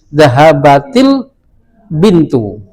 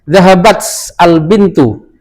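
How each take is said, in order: First: An added 'i' vowel links the two words. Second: The two words join with no extra vowel. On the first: This is the strict, disciplined form. The speaker calls it right. "Harus dikasih jar, harus dikasih kasroh" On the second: This is acceptable in casual speech. The speaker calls it wrong. "kalau dalam bahasa mengucapkan"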